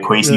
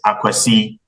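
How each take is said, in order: First: The name begins directly with 'kw', no vowel. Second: The name begins with a short vowel before 'kw'. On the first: This is the name as said in Canada. The speaker calls it wrong. "in Canada, they put a little twist on it" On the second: This is the name as said in Ghana. The speaker calls it right. "the right way of saying it"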